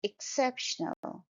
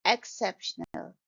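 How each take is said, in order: First: Exceptional opening with short i as in ship; correct first vowel. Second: Exceptional opening with an open "ek" vowel, as in cat or bed; wrong first vowel. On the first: Teacher correcting exceptional to an initial short i. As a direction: softly say exceptional starting "ik". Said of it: "the first sound is A". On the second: Teacher showing mistaken open first vowel in exceptional. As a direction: start exceptional on a wide eh-aa sound. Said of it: "it's not exceptional". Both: Shown as a demonstration.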